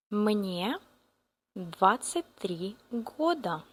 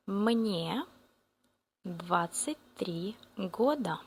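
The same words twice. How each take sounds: The two takes are said the same way.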